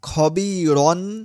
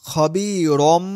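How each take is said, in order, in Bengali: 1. শব্দটি 'n' ধ্বনি দিয়ে শেষ হয়। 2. শব্দটি 'm' ধ্বনি দিয়ে শেষ হয়। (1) "খবীরন না বলে" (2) "খবীরম,রম মিম"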